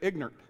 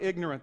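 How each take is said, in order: First: It is said in the local Hillsville, Virginia pronunciation. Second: It is said in a standard, non-local pronunciation. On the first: "They say ignorant" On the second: "they don't say ignorant"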